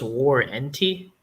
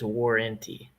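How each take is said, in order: First: The word is pronounced carefully, following its spelling. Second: The word is pronounced in a relaxed Canadian accent. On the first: "the way I spelled it out was warranty" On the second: "the way I say it is warranty"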